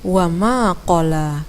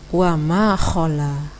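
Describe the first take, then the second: First: The last word starts with a deep, stopped 'q'. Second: The last word starts with a breathy 'kh'. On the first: The speaker calls it right. "Hal lain yang juga perlu diperbaiki adalah" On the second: The speaker calls it wrong. "Tadi bacaannya"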